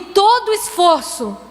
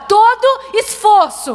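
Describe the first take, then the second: First: It is said at normal loudness. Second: It is said loudly and with effort.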